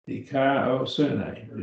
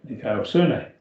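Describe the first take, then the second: First: Dikaiosune drawn out in separate syllables; slow, syllable by syllable. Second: Dikaiosune at a quick, joined-up pace; sped up. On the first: Teacher showing how to pronounce a Greek word, slowly by syllables. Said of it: "break it up into the syllables and pronounce them slowly". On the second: Teacher showing the class the finished Greek word, sped up. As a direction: run the syllables of Dikaiosune together swiftly. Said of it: "then speed yourself up and you'll get it". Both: Shown as a demonstration.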